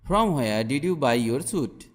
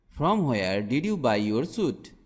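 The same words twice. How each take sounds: The two takes are said the same way.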